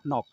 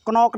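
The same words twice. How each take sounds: First: "नॉक" starting straight on N; silent K. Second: "क्नॉक" opening on a hard KN cluster; K sounded. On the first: Teacher corrects the reading, first K silent in "नॉक". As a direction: say "नॉक" without the opening K. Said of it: "क्नॉक नहीं पढ़ सकते". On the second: Teacher warns class off this reading, K sounded in "क्नॉक". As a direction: say "क्नॉक", wrongly sounding the first K. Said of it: "नहीं पढ़ सकते". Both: Shown as a demonstration.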